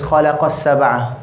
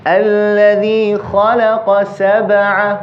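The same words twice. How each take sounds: First: "خلق سبع" merged as if one word; words run together. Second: Higher chant, "خلق سبع" as two distinct words; words kept separate. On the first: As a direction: mistakenly join the q of "خلق سبع" onto the s. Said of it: "sometimes we might say this". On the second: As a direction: recite slowly, keeping "خلق" apart from "سبع". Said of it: "keep the two words separate". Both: Shown as a demonstration.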